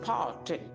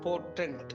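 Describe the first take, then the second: First: The first vowel is drawn out long. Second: The first vowel is short and clipped. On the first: The speaker calls it right. "நீட்டி சொல்ல வேண்டும்" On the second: The speaker calls it wrong. "நம்ம we tend to spell, pronounce அது அப்படி இல்லை"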